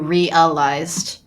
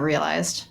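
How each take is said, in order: First: The word is said with three syllables. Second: The word is said with two syllables. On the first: This version makes the line ten syllables. The speaker calls it right. "it's ten if you do realized" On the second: This version leaves the line a syllable short. The speaker calls it wrong. "instead of realized"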